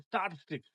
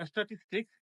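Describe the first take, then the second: First: "statistics" as sta-TIS-tiks, falling; correct pronunciation. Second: "statistics" as es-ta-tis-tiks; extra vowel before "statistics"; common mispronunciation. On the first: Teacher repeats "statistics" correctly as sta-TIS-tiks. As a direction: clean st start on "statistics", light middle t. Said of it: "this is". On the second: Teacher repeats what to avoid, "statistics" mispronounced as es-ta-tis-tiks. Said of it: "this is not". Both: Shown as a demonstration.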